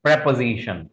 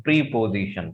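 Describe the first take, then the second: First: Preposition said as "prep-uh-ZI-shun"; short "prep" at the start of preposition; correct pronunciation. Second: Preposition said as "pree-po-zi-shun"; long "pree" at the start of preposition; wrong pronunciation. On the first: Teacher correcting the word, properly pronounced. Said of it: "Actually, this is". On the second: Teacher showing what not to say, mispronounced. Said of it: "this is not". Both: Shown as a demonstration.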